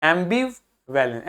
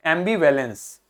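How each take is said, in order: First: Ambivalence slowly split into pieces; slow, soft breakdown of ambivalence; word in parts. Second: Ambivalence as one word, AM stressed; lower-pitched, joined-up ambivalence; stress on first syllable. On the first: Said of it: "इसको हल्का बोलना है". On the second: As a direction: lean on AM, keep the end of ambivalence light. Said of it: "इस पे हमें जोर देना है". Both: Shown as a demonstration.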